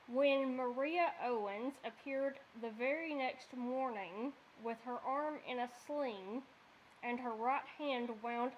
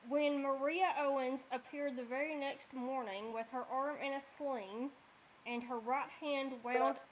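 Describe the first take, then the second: First: It is read at a slower pace. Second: It is read at a faster pace.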